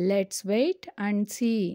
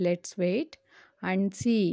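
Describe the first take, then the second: First: Said slowly as one phrase; teacher saying the whole sentence slowly; slow model sentence. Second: "Let's wait" rising, pause, then "and see."; teacher chunking the sentence for learners; split in two chunks. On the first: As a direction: read "Let's wait and see." slowly in one go. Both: Shown as a demonstration. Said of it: "వేచి చూద్దాం".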